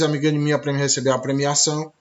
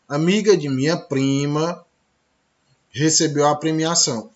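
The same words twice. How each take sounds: First: The words run on with no pause. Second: There is a clear pause before 'recebeu'. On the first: The speaker calls it wrong. "Você não fala" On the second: The speaker calls it right. "olha a pausa"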